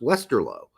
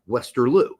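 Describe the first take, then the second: First: The last syllable ends in an 'oh' sound. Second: The last syllable ends in an 'oo' sound. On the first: The speaker calls it right. "it's pronounced Westerlo" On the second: The speaker calls it wrong. "not Westerloo"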